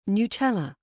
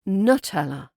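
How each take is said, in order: First: The first vowel is a full U sound. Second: The first vowel is reduced to a schwa. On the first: The speaker calls it right. "but it's Nutella" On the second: The speaker calls it wrong. "I've been turning that U into a schwa"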